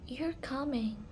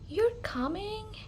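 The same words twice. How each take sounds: First: The pitch falls at the end. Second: The pitch rises at the end. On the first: It is stated as a fact. "with the falling intonation, it sounds like a statement" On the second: It is asked as a question. "with the raising intonations, it sounds like a question"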